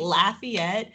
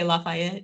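First: The name is said with an American accent. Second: The name is said with a Cajun French accent.

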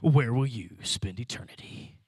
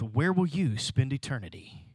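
First: It is said in a dramatic movie-trailer voice. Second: It is said in a normal speaking voice.

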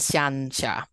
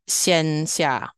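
First: The vowel in xian sounds like 'an'. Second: The vowel in xian sounds like 'en'. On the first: The speaker calls it wrong. "rather than xian xia" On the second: The speaker calls it right. "So xian xia rather than"

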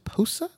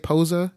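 First: The name has an s sound, first syllable stressed. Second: The name has a z sound in the middle. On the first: The speaker calls it wrong. "he really just like enunciates on the Poe part. And like sa, not like za" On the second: The speaker calls it right. "like most people might say posa"

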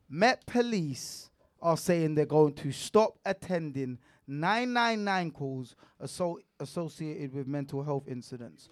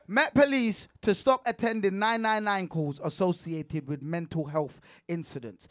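First: It is read slowly. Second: It is read at a normal pace.

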